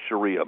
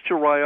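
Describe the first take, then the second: First: Sharia, middle syllable rhyming with "see"; Sharia as sha-REE-a. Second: Sharia, middle syllable rhyming with "eye"; Sharia as sha-RYE-a. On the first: Guest offers host the other way, Sharia as sha-REE-a. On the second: Guest asks host which way is right, Sharia as sha-RYE-a. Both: Shown as a demonstration. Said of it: "I've heard it pronounced both ways".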